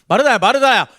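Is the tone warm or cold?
cold. It is said in a cold, pushing tone.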